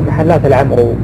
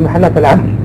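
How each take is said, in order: First: The name ends with an extra vowel. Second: The name ends without an extra vowel. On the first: The speaker calls it wrong. "يقراها محلات العمر، وهذا خطا" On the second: The speaker calls it right. "هي محلات العمر"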